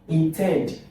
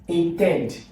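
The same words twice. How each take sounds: The two takes are said the same way.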